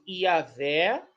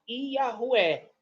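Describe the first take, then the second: First: The consonant before the final vowel is a v. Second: The consonant before the final vowel is a w.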